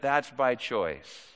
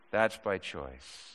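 First: Said in the usual way. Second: Softer, slower echo of that's by choice; quiet deliberate repeat. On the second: Shown as a demonstration. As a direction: let it sink in, quietly. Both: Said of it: "if I'm being redundant, that's by choice".

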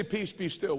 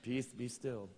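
First: Mince the line lightly; effeminate mock voice. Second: Much softer, lower lisped mock rebuke; effeminate mock voice. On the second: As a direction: lisp it gently like a dainty man. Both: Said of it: "with an effeminate accent".

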